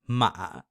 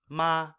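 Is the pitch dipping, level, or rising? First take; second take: dipping; level. First: The pitch falls low, then rises again. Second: The pitch stays high and level throughout. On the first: "beginning kind of middle to low, falling down, and then rising back up again" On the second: "you're starting high, staying high, not veering from that"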